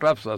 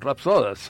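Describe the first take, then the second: First: The stress is on the first syllable. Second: The stress is on the second syllable. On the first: The speaker calls it wrong. "Tampoco son rapsodas" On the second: The speaker calls it right. "Son palabras llanas"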